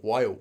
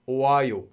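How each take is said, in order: First: The o and a merge into one quick wa. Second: The o and a vowels are said separately.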